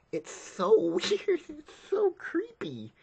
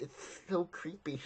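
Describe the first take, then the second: First: High, slow squeal through laughter; creeped-out high giggly voice; laughing squeal. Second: Said in the usual way. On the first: Real, not acted. Creeped out by the scene.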